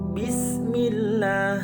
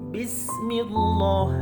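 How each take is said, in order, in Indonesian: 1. Huruf l dalam Allah dibaca tipis. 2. Huruf l dalam Allah dibaca tebal. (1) "harus membacanya tipis" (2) "tidak boleh membacanya Bismillah"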